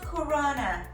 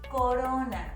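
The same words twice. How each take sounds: First: The R is a hard, English-style R. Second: The R is a soft, light tap. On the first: The speaker calls it wrong. "it is not Corona" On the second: The speaker calls it right. "It's with a soft R"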